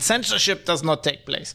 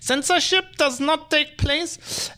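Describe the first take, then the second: First: It is said in the speaker's plain accent. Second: It is said with a put-on German accent.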